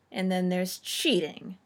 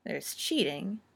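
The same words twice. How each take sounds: First: "cheating" slower and louder, with a falling end; sniffed emphasis. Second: Said in the usual way. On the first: A narrator's reading. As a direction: lean knowingly on the second "cheating". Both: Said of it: "Nanny sniffed".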